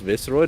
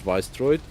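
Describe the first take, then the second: First: The first syllable sounds like 'viss' in viscous. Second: The first syllable sounds like 'vice' without an S. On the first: The speaker calls it right. "very much should be pronounced Visceroid" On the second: The speaker calls it wrong. "and not Viceroid"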